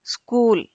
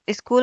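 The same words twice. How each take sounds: First: स्कूल as "skool"; correct initial cluster. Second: स्कूल as "iskool"; short i before the s in स्कूल; wrong extra vowel. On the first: Teacher corrects स्कूल, said "skool". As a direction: start स्कूल straight on s. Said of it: "क्या होता है?". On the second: Teacher shows wrong स्कूल, said "iskool". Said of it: "स्कूल ना होकर". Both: Shown as a demonstration.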